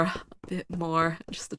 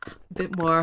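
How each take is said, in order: First: Whispering. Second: Said in the usual way. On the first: Real, not acted. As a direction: breathe it out, barely voiced. Sneaking past in game.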